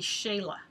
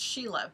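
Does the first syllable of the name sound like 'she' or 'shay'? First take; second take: shay; she. First: The first syllable sounds like 'shay'. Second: The first syllable sounds like 'she'. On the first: The speaker calls it right. "the proper way to say my name ... You're supposed to say Shay, not she" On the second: The speaker calls it wrong. "we were always told it's Sheila"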